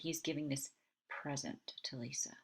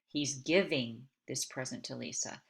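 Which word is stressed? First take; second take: present; giving. First: The stress is on present. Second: The stress is on giving.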